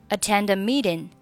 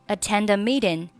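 The two takes are said the same way.

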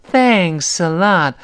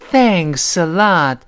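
First: It is said warmly, with strong feeling. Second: The same.

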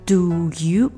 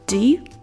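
First: The vowel in 'do' is a full oo sound. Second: The vowel in 'do' is a quick schwa. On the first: "如果是你正常读它是do you" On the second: "我们说快以后它会变成 do you d d d"

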